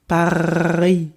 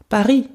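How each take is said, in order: First: The word is said slowly, with a drawn-out R. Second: The word is said quickly, at natural speed. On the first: "I repeat the first one like a gargling air" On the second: "in a natural speed, it's just Paris"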